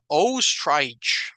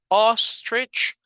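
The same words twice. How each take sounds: First: The vowels are full, clear Spanish-like O and I. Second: The vowels are short and reduced, English-like. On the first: The speaker calls it wrong. "La O no es O, ni la I aquí tampoco es I, ¿verdad? Sino sería ostrich" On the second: The speaker calls it right. "pero la palabra ostrich sí existe"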